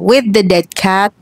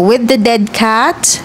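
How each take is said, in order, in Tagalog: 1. Tinanggal ang background noise sa audio. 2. Naiwan ang background noise sa audio. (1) "this is with noise cancellation on" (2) "this is the audio with noise cancellation turned off"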